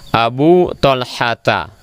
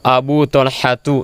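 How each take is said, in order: First: The name ends in an 'a' vowel. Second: The name does not end in an 'a' vowel. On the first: The speaker calls it right. "Yang benar adalah Abu Talhata" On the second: The speaker calls it wrong. "Jangan dibaca Talhati atau Abu Talhatu, salah"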